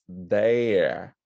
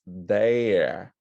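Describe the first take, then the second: First: The vowel glides like a diphthong before the r. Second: The vowel glides like a diphthong before the r.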